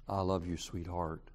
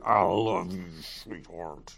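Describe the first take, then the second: First: The voice sounds warm and affectionate. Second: The voice sounds angry and hostile. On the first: The love is sincere. The speaker calls it right. "I looked at Alice and I smiled and I said" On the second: There is ill will behind the words. The speaker calls it wrong. "And she knows there's anger. There's ill will"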